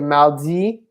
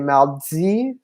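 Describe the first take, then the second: First: The d in mardi is a plain d. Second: The d in mardi has a hissing ts sound. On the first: This is how it is said in France. "in France, they would say mardi" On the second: This is how it is said in Quebec. "in Quebec, they would say mardi. So there's more of like a tss sound on it"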